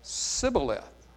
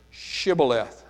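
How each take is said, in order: First: "Sibboleth" slowly with a plain s instead of sh; wrong Sibboleth. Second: "Shibboleth" said clearly with a full sh sound at the start; correct Shibboleth. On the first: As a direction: lisp the mistake, s-ibboleth, slow. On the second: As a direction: stress the right way, sh-ibboleth, a bit louder. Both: Shown as a demonstration. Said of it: "could not frame to pronounce it right".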